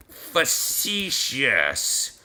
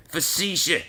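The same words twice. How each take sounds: First: "facetious" stretched very slowly, syllable by syllable; very slow, hesitant "facetious"; sounding out. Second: Said in the usual way. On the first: Real, not acted. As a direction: draw out "facetious" into long separate sounds. Sounding out word to spell it.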